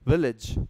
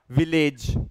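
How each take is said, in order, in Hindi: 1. अंत 'ij' की तरह बोला जाता है। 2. अंत 'ij' की तरह नहीं बोला जाता है। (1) "इज इज, that's what you have to से" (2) "and not village"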